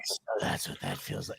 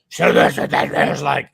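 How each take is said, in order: First: It is said in a quiet whisper. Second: It is said in a full gravelly Batman voice.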